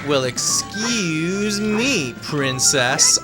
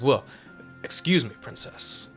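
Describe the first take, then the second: First: It is said in a sarcastic tone. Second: It is said seriously, without sarcasm.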